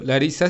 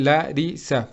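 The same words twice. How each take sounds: First: Said in the usual way. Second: "Larisa" broken into three syllables, la, ri, sa; split into syllables. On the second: Shown as a demonstration. Teacher showing students how the name separates, "Larisa" said in separated syllables. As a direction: say "Larisa" syllable by syllable, with small gaps. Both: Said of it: "se separa en".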